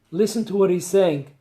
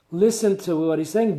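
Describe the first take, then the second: First: The word "what" leaned on in "Listen to what he's saying"; stress on what. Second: The word "Listen" leaned on first in "Listen to what he's saying"; stress on listen. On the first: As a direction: point at "what" as the key word. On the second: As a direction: open by hitting "Listen" as the command. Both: Shown as a demonstration. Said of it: "repeated instruction, stress shifts".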